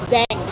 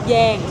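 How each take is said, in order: First: It starts with a z-like sound, northern style. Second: It starts with a y-like sound, southern style. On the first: "In the north it's Zhang" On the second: "south it was called yeah yeah Yang"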